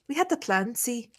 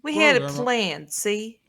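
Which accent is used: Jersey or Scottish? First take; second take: Scottish; Jersey. First: It is spoken in a Scottish accent. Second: It is spoken in a New Jersey accent. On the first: "That's Scottish" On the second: "gonna do Jersey"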